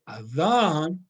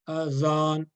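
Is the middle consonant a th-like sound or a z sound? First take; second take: th-like sound; z sound. First: The middle consonant is a th-like sound. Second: The middle consonant is a plain z sound. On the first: "the tip of the tongue is going to touching my upper teeth" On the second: "like using this z, z here, that will be like tongue is going to be here"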